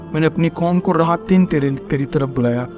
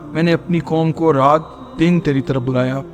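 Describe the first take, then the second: No difference in how they are said.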